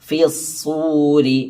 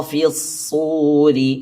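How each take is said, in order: Both takes have the same delivery.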